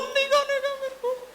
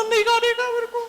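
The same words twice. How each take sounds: First: Put-on a small child digging in his heels; stubborn little boy. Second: Put-on very high, loud whiny kid refusing; a small child digging in his heels; stubborn little boy. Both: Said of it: "बोला ना". (ज़िद्दी छोटे बच्चे की ऊँची आवाज़)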